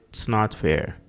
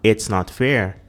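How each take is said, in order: First: The word it's is shortened to just ts. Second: The word it's is said in full. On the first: "os gringos falarem apenas t's" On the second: "que estaria totalmente perfeito aí"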